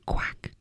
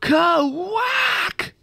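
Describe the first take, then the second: First: It is said quietly. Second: It is said loudly.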